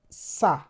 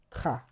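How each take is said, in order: First: The word begins with an S sound. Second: The word begins with a K sound. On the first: "because of the accent, the cedil accent, it sounds sa" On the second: "Ordinarily, this would have been pronounced ka"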